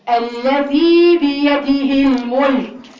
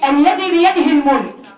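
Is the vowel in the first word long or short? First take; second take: long; short. First: The vowel in the first word is lengthened. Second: The vowel in the first word is short. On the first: The speaker calls it right. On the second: The speaker calls it wrong.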